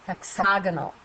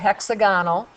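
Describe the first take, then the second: First: The stress is on the second syllable. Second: The stress is on the first syllable. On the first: The speaker calls it right. "we say hexagonal" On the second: The speaker calls it wrong. "We don't say it hexagonal"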